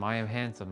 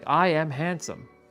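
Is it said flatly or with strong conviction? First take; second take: flatly; strong conviction. First: It is said flatly, without feeling. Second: It is said with strong emotional conviction.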